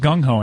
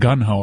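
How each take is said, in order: First: The first syllable ends with an 'ng' sound. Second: The first syllable ends with an 'n' sound. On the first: The speaker calls it right. "it was gung-ho" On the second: The speaker calls it wrong. "not gun-ho? A lot of people mispronounce that"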